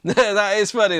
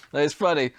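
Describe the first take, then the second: First: Laughing. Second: Said in the usual way. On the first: Real, not acted. Laughing at the meme.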